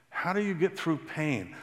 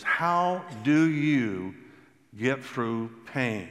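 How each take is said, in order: First: Said in the usual way. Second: A pained question, dragged out; slow, heavy asking; slow, searching question. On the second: Retold or imitated. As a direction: ask it slowly, drawing out each word. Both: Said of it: "one of the ones I get the most is".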